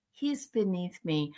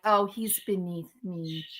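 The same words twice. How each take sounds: First: Quieter, lingering haughty sneer; snooty mock voice, softer still. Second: Softer, haughty put-on voice; snooty mock voice. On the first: Streamer repeats rival's snobbery, softer and haughtier. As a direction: let the snob's line fade to a sniff. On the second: Streamer mocks rival's snobbery in a soft haughty voice. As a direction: sneer it like a snob. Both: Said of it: "be like".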